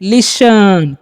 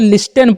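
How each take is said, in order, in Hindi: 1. बीच में t की आवाज़ मौन होती है। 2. बीच में t की आवाज़ बोली जाती है। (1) "इसे आपको पढ़ना है लिसन।" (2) "बहुत सारे स्टूडेंट्स से लिस्टन पढ़ लेते हैं, जो कि रॉन्ग है।"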